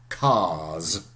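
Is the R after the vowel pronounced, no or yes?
no. It is said without an R before the S.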